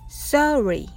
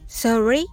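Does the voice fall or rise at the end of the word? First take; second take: fall; rise. First: The pitch does not rise at the end. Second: The pitch rises at the end. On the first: An apology. "次はネイティブ風です。" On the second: Asking the other person to repeat. "これをえという感じで言ってみましょう。"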